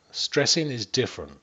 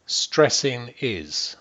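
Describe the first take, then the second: First: Said in the usual way. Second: Stressing drawn out slowly and weighted, then a firm fall on is; slow emphasis on Stressing. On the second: Shown as a demonstration. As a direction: lean hard on the verb Stressing, slow and deliberate. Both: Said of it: "Stressing is the verb".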